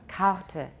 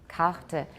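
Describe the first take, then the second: Both takes have the same delivery.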